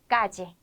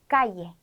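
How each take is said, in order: First: The middle consonant sounds like a j. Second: The middle consonant sounds like a y. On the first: "지로 발음을 하기도 하고" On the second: "이로 소개를 해드렸지만"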